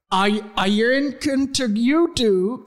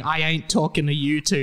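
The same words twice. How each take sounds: First: "talking to you two" slow and run together, higher; slurred as written. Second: Said in the usual way. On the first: Shown as a demonstration. Co-host shows what Hagrid was saying, slurred. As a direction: garble "talking to you two" slowly in character. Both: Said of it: "He was saying".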